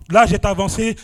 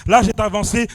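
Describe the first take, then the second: No difference in how they are said.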